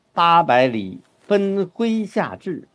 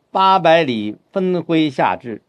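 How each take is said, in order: First: 八百里分麾下炙 read slowly with a pause after 八百里; phrase it as eight hundred li, pause, then 分麾下炙; slow correct model phrasing; right phrasing. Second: 八百里分麾下炙 read too literally, phrased by surface meaning; mock misreading with wrong pauses; wrong phrasing. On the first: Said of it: "这样的话呢，停顿呢就能够把握好". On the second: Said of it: "这就麻烦了". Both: Shown as a demonstration.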